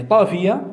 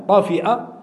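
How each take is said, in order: First: طافية ending in a gliding -fiya; pronounced with yā'. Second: طافئة ending in a glottal stop plus a; pronounced with hamza. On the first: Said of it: "طافية بالياء". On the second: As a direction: say طافئة as ṭāfi-'a, with a catch before the last vowel. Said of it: "بالهمز". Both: Shown as a demonstration.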